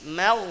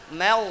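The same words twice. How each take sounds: No difference in how they are said.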